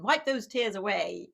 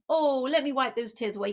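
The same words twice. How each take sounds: First: Wipe those tears away said as a firm, scolding order; a stern father telling his son to stop crying; stern dad. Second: Put-on a parent sweetly comforting a crying child; cooing parent. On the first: Retold or imitated. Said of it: "sort of a punishing response". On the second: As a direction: let me wipe those tears away crooned higher and soothing. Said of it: "another kind of response".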